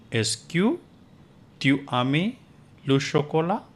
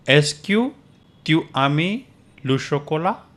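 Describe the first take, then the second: First: Est-ce que tu aimes le chocolat repeated softer for students, still rising; second take, softer, for the class to echo. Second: Est-ce que tu aimes le chocolat said with a high rising question tune; teacher models the question for repeating, rising high. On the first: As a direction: quieter model repeat of the question. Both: Shown as a demonstration. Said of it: "You can repeat after me".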